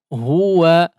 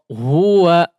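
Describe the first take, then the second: No difference in how they are said.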